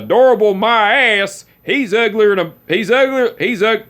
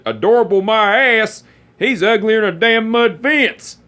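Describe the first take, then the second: First: High, loud hammed-up scorn; mock-grumpy uncle. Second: Mock-grumpy uncle. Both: Uncle teasing girlfriend about nephew, hammed-up scorn. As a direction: ham up a cranky old uncle's insult.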